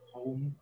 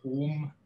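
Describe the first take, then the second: First: HOME with a gliding O diphthong; received pronunciation. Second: HOME with a long pure O, no glide; traditional Welsh English. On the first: Linguist giving example words for comparison, HOME in received pronunciation. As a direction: say HOME the RP way, the vowel moving from O towards OO. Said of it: "this vowel sound in received pronunciation". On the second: Linguist demonstrating the Welsh accent to an audience, HOME with a monophthong. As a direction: say HOME the Welsh way, one steady "hohm" vowel. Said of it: "very different pronunciation for this vowel sound".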